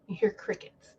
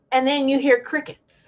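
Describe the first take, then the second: First: Whispered aside, breath only; a stage whisper for the silence. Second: Said in the usual way. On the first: Shown as a demonstration. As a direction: drop to a hushed whisper for effect.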